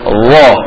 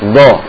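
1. Bunyinya mulai dengan sedikit seretan. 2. Bunyinya mulai tiba-tiba, tanpa seretan. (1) "Ada seretan sedikit ya" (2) "Jadi bukan dha, dha, bukan"

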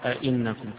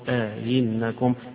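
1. الهمزتان تُنطقان كاملتين دون فاصل. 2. ألف مد طويلة تفصل بينهما، والهمزة الثانية مُسهَّلة. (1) "فيقرأ آئنكم كغيره" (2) "وبالإدخال مع التسهيل"

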